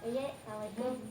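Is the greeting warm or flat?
flat. The greeting sounds flat and unenthusiastic.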